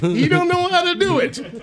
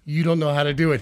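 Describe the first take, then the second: First: Much higher, slow singsong jeer; high mocking taunt. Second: Said in the usual way. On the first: Coworker taunting the new guy every day, slow high jeer. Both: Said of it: "I worked there for two months".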